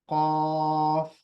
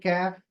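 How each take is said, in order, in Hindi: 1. पहली आवाज़ पीछे की तरफ़ बनती है। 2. पहली आवाज़ आगे की तरफ़ बनती है, जैसे k। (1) "इसकी सही आवाज है कौफ" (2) "इसको पढ़ते हैं कैफ, ये भी गलत है"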